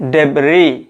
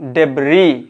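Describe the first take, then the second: Both takes have the same delivery.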